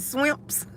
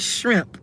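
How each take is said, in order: First: The word begins with an sw sound. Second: The word begins with an shr sound. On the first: This is how some people say it. "Some people say scrimps and swimps" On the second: This is the word they are aiming for. "they're trying to say shrimp"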